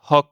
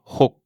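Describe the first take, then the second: First: "hoc" with open O and released K; wrong open O. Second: "ho" with breathed H and closed O as in "mot". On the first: Teacher warning of a mistake, "hoc" with open O. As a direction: say "hoc" French-style, the final K audible. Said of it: "il ne faut pas dire". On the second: Teacher correcting the mistake, "ho" with closed O. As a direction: cut "ho" short on a closed O. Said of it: "un O fermé comme dans mot". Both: Shown as a demonstration.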